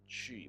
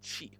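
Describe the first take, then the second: First: It starts with an English ch sound. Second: It starts with a Mandarin q, lips spread. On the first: The speaker calls it wrong. "Not chi" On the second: The speaker calls it right. "but qi. You have to stretch your lips back like you're smiling"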